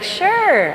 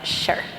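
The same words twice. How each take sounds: First: It sounds warm and willing. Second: It sounds grudging and annoyed. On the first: The person is happy to agree. "most people, sure is like, sure, I would love to" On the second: The person is reluctant or irritated. "it's usually met with an eye roll and a sure"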